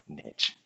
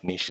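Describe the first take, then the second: First: The word is said with an English pronunciation. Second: The word is said with a French pronunciation. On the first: "that's how you say it in English" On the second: "niche is how you say it in French"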